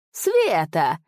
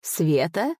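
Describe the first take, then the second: First: Mocking exclamation. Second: «Света?» echoed with a rising, mocking question tune. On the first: Spirit taunting the master with his own word, scornful exclaim. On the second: Spirit echoing the master's plea, mocking rising question. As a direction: toss «Света?» back as a scoffing question. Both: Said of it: "пуще прежнего рассмеялся голос".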